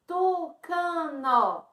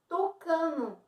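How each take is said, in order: First: TUCANO stretched very slowly into TU-CA-NO; slow syllable split. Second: Said in the usual way. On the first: Shown as a demonstration. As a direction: draw out all three syllables of TUCANO. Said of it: "Então, tem três sílabas". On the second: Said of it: "Como ela se forma?".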